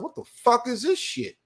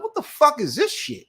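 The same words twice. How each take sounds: First: High, incredulous mock outburst; retold disbelief. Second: Much higher, squeaky incredulous outburst; retold disbelief. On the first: To himself at the agency, a high incredulous outburst. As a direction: play up the disbelief in a raised voice. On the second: To the agency clerk, a far higher incredulous outburst. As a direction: push the disbelief way up in pitch.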